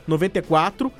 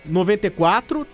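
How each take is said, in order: Both takes have the same delivery.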